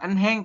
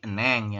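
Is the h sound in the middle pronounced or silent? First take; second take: pronounced; silent. First: The middle h sound is clearly pronounced. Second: The middle h sound is dropped entirely. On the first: The speaker calls it wrong. "yang ini pun bukan enheng" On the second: The speaker calls it right. "tapi eneng"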